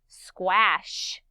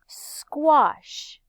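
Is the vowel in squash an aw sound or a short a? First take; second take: short a; aw sound. First: The vowel is a short a sound. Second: The vowel is an aw sound. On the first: The speaker calls it wrong. "I don't say squash" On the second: The speaker calls it right. "I say squash"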